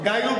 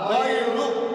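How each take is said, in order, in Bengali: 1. প্রথম উচ্চারণাংশে দীর্ঘ 'ai' গ্লাইড আছে। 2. প্রথম উচ্চারণাংশে সাধারণ ছোট 'a' আছে।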